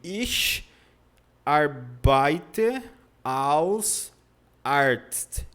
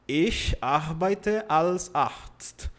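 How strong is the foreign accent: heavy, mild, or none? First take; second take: heavy; none. First: It has a heavy foreign accent. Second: It has no noticeable foreign accent. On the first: A beginner after one month says it. The speaker calls it wrong. "com um mês o aluno fala assim" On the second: A learner after six months says it. The speaker calls it right. "Pronto, já pronunciou"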